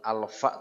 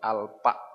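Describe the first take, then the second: First: The middle consonant is an f sound. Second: The middle consonant is a p sound. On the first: The speaker calls it right. "bukan alfa" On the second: The speaker calls it wrong. "tapi alpa"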